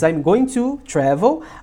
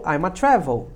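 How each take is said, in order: First: 'Going to' is pronounced in full. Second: 'Going to' is reduced to a single 'a'.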